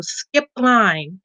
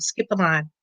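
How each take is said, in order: First: "Skip the line." drawn out slowly, each word weighted; emphatic, unhurried urging; slow emphatic advice. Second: "Skip the line." said lower and softer as a closing echo; a quiet, settled restatement; lower, softer repeat. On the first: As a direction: lay it down slowly as a firm tip. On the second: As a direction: drop it down to let it sink in. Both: Shown as a demonstration. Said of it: "I can't stress it enough".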